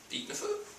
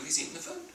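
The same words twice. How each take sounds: First: Eating the food, said much higher and breathy, with mock gusto; mock eager. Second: Said in the usual way. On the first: Shown as a demonstration. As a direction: play up his new appetite, high and airy. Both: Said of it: "But now he's, like".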